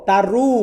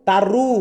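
The two takes are said the same way.

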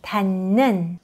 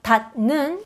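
First: The first syllable ends in an n sound. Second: The first syllable ends in a d sound. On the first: The speaker calls it right. "this d sound becomes n sound" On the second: The speaker calls it wrong. "So it's not 닷 는, no"

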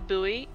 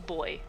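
First: The word is said the American way. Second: The word is said the non-American way, like 'boy'. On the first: "Americans say buoy" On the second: "it is a boy"

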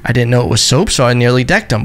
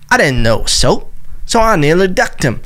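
First: It is read in the speaker's own accent. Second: It is read in the quoted man's accent.

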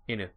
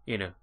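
No difference in how they are said.

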